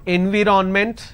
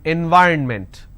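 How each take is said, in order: First: The middle is said 'vi-ron'. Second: The middle is said 'vy-urn'. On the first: The speaker calls it wrong. "It's not environment" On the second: The speaker calls it right. "it is environment"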